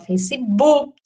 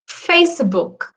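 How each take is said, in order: First: The stress is on the second syllable. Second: The stress is on the first syllable. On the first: "a gente transforma numa paroxítona" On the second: "em tese, a pronúncia é Facebook... a tônica é o Fá"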